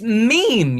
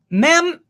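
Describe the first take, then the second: First: It is one syllable with a long 'ee' vowel. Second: It is one syllable with a short 'e' vowel. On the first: The speaker calls it right. "It's it's meme, you fucker" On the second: The speaker calls it wrong. "if you want to be stupid and not worry about the E at the end"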